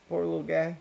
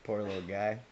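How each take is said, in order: First: Higher, louder 'Poor little guy' with 'guy' stressed; sympathetic aww. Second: Said in the usual way. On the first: Real, not acted. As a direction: coo it out in pity, with 'guy' leaned on.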